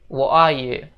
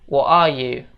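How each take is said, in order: First: The t in 'what' becomes a glottal stop. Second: The same.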